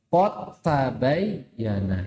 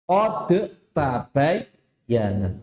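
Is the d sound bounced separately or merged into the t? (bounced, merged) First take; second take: merged; bounced. First: The d merges into the following t. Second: The d is released with an echoing bounce. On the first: The speaker calls it right. "Seharusnya dalnya masuk ke huruf ta" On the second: The speaker calls it wrong. "Bacanya salah. ... Mengkolkolakan huruf dal"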